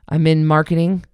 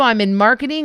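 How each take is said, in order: First: It is said quietly and flatly, without energy. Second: It is said loudly and warmly, with energy. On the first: The speaker seems not to care about the group. The speaker calls it wrong. "nobody heard you in the back of the class" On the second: The speaker seems glad to meet the group. The speaker calls it right. "smile at us"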